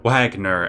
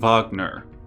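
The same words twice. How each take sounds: First: The name is said in an English way. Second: The name is said in a non-English way.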